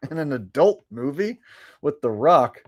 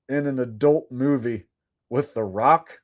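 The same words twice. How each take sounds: First: Laughing, incredulous rising question; amused disbelief. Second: Said in the usual way. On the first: Real, not acted. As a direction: repeat it like you can't believe it. Repeats request in disbelief.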